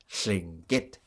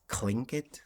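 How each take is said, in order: First: It starts with a voiceless L, high at end. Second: It starts with a K followed by L. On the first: The speaker calls it right. "We say Tlingit, and there's a high tone at the end" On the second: The speaker calls it wrong. "pronounced with a K, uh, a K L, I guess"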